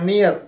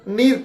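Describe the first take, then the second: First: It is said with an Indian accent, like nee-yar. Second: It is said with an American accent, like neer.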